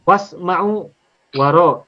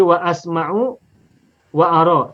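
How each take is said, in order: First: WASMA'U, WA RO with the hamzah dropped; wrongly joined. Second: WA ASMA'U, WA ARO split after each wa; cut at hamzah. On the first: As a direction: merge wa into the next sound, was-ma'u, wa-ro. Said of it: "Tak boleh begitu". (wasma'u, waro disambung tanpa hamzah) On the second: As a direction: pronounce a fresh a in WA ASMA'U and WA ARO. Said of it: "Tetapi harus dipotong". (wa asma'u, wa aro dipenggal pada hamzah) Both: Shown as a demonstration.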